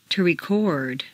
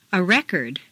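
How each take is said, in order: First: ReCORD, stressed on the second syllable. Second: RECord, stressed on the first syllable. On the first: Teacher models verb "record", second-syllable stress. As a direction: hit CORD in "record". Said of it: "to the second syllable". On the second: Teacher models noun "record", first-syllable stress. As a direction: hit REC in "record". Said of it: "first syllable for nouns". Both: Shown as a demonstration.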